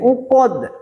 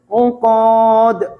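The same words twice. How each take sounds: First: The final vowel is kept short. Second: The final vowel is drawn out long. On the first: The speaker calls it right. "tidak ada alif di situ, tidak ada huruf mad" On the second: The speaker calls it wrong.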